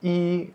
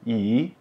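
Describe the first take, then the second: First: The syllable is said with a high level tone. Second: The syllable is said with a rising tone. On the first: "i, nada satu" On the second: "kita bacanya jadi i, nada kedua"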